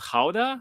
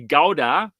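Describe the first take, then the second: First: It is said with a Dutch-style pronunciation. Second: It is said with a German pronunciation. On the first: This is how the locals say the town's name. "I think you would pronounce it" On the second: This is how Germans say the name. "in Germany we say Gouda"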